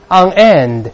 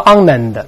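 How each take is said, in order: First: The words stay separate, with stress on end. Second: The two words run together without a break. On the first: The speaker calls it right. "第一个end 重读，所以中间不连读" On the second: The speaker calls it wrong. "所以中间不连读，不要读on end，它不这么读啊"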